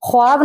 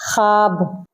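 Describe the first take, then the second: First: ख्वाब with the w said, khwaab; w sounded. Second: ख्वाब said khaab, no w; silent w. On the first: Teacher showing the wrong reading with the w sounded. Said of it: "ख्वाब नहीं होता है". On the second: Teacher giving the right reading, w silent. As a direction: drop the w in ख्वाब. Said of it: "क्या होता है". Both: Shown as a demonstration.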